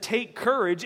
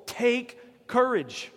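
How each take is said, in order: First: Said in the usual way. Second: "Take courage." stretched out slowly and emphatically, every word weighted; emphatic, slow. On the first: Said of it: "God's not one who just wastes words". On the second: Shown as a demonstration. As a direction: spell out "Take courage." word by word, as a firm command. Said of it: "Paul needed to be told".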